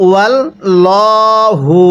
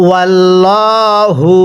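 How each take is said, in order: No difference in how they are said.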